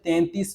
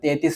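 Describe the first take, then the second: First: The first syllable has a nasal n sound. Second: The first syllable has no nasal n sound. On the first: The speaker calls it right. "തേൻതീസ് എന്ന് പറയുമ്പോഴാണ് അതിൻ്റെ ഒരു ശരിയായ ഒരു രീതി" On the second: The speaker calls it wrong. "കുഴപ്പമൊന്നുമില്ല"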